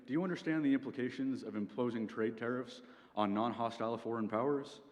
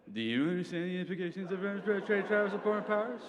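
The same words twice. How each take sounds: First: Said in the usual way. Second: High, climbing, slurred parroting of a question; dumb mocking voice. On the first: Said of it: "repeating the question you've just been asked". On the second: President repeating the secretary's question back, dumb voice. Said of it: "in a dumb voice".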